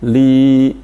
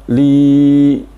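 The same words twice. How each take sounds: First: The vowel lasts about two beats. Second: The vowel is stretched beyond two beats. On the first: The speaker calls it right. "Kalau lam ya maka li" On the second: The speaker calls it wrong. "itu kepanjangan karena ini berarti tiga huruf"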